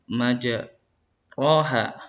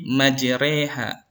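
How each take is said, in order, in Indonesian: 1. Vokal setelah r terdengar seperti o. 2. Vokal setelah r terdengar seperti e. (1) "kalau orang yang baru belajar membaca Al-Quran dia baca majroha" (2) "dibaca re sehingga menjadi majreha"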